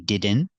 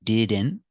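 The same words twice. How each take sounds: No difference in how they are said.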